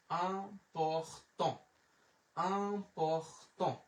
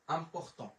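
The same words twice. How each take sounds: First: Important stretched very slowly, syllables apart; slow teacher's demo of important, piece by piece. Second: Said in the usual way. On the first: Shown as a demonstration. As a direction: break important into drawn-out sounds. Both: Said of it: "এটা হচ্ছে important".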